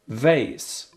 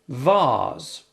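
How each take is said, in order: First: It is said with an American accent. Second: It is said with a British accent.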